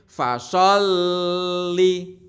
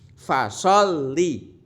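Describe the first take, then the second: First: The 'l' sound is pressed and held long. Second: The 'l' sound is pressed and released quickly. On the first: The speaker calls it wrong. "tidak ditahan, maksudnya itu tidak boleh fasolli" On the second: The speaker calls it right. "hanya ditekan sedikit langsung dilepaskan"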